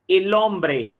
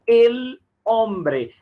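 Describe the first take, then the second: First: Slow, "el hombre" run together with no break, the l sliding straight into "hombre"; linked together. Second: Said in the usual way. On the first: Shown as a demonstration. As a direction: join "el" and "hombre" into one smooth word, slowly. ("el hombre" ligado, devagar, tudo junto sem pausa) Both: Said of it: "você vai juntar aqui".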